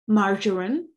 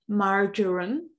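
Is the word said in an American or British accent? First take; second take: American; American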